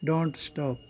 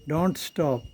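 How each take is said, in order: No difference in how they are said.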